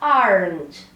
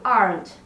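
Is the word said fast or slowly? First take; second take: slowly; fast. First: The word is said slowly with a clear vowel. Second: The word is said quickly with almost no vowel. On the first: "Falando devagar" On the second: "Mais rápido"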